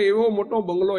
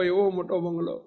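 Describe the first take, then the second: First: Said in the usual way. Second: Softer echo. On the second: Shown as a demonstration. Preacher to congregation, echoing the phrase, much softer. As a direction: repeat એવો મોટો બંગલો much softer and lower.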